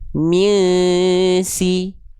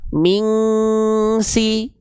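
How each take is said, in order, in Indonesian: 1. Dengung sengau sebelum s itu lemah. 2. Dengung sengau sebelum s itu kuat. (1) "Yang kedua lebih tepat ya" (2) "Ini yang dia terlalu kuat"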